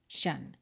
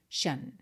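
First: The ending is said as shan. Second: The same.

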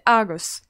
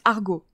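First: The word ends with a clear s sound. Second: The word ends without a final s sound. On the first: This follows the written form of the name. "j'ai la prononciation britannique. Moi, je dis Argos" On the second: This is how others in the field say it. "d'après Melvac, ça se prononce Argo"

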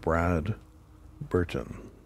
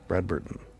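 First: The name is said slowly, as two words. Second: The name is said quickly, run together. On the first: It sounds like a man's name. The speaker calls it wrong. "or else it sounds like a guy named Brad Burton" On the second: It is the name of this thing. The speaker calls it right. "You gotta say it quick"

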